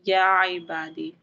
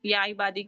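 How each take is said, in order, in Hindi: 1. लंबे स्वर (मद्दा) खींचकर बोले जाते हैं। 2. स्वर छोटे और जल्दी में बोले जाते हैं। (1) "उसको खींच कर पढ़ना है" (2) "ऐसे ही पढ़ कर के नहीं निकल जाना है, जैसे कि निकल जाते हैं"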